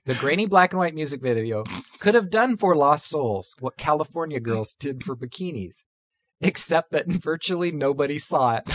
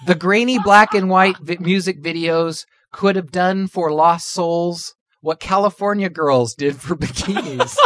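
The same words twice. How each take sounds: First: Quiet, holding back laughter; suppressing giggles while reading; trying not to laugh. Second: Reading while holding in laughter; fighting back giggles; trying not to laugh. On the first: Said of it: "I gotta hold it together". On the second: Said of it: "Sorry, I'm losing it". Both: Real, not acted.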